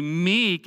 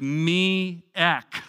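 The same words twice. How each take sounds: First: Said in the usual way. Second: "me-ek" drawn out as me and ek; split into two syllables. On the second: Shown as a demonstration. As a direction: pull "me-ek" apart into two beats. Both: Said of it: "a good way to think of it is me-ek".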